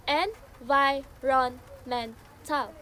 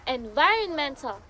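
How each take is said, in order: First: "environmental" slowly, syllable by syllable; "environmental" in slow beats with small gaps; broken into syllables. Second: Said in the usual way. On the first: Shown as a demonstration. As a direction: sound out "environmental" as en-vi-ron-men-tal. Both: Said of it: "when break into syllables".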